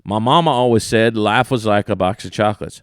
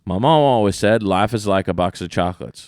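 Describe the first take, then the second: First: Light Southern imitation with "was"; lightly accented movie quote, "was" run into "like"; Forrest Gump quote, was. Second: Light Southern imitation with "is"; lightly accented movie quote, "is" run into "like"; Forrest Gump quote, is. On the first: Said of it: "listen to this". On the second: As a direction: say "is" quickly in a mild Southern accent. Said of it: "I said is in one of them". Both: Shown as a demonstration.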